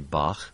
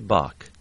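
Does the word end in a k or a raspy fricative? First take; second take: fricative; k. First: It ends in a raspy throat fricative. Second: It ends in a plain k sound. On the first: "people are likely to say Bach" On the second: "use a K instead of that K sound"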